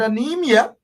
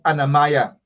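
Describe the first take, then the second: First: The word ends with an 'ee-a' sound. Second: The word ends with an 'eye-a' sound.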